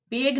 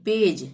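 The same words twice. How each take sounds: First: पेग ending in a hard g; wrong hard g. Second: पेज with a final j sound; correct soft g. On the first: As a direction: misread page as पेग, "peg". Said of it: "पेग नहीं". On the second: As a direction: say page as पेज, ending like j. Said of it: "ज का ही उच्चारण करेंगे". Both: Shown as a demonstration.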